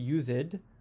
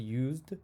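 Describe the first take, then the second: First: The ending is said as a separate syllable. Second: The word is said as one syllable. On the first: The speaker calls it wrong. "we don't say used" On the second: The speaker calls it right. "we say used"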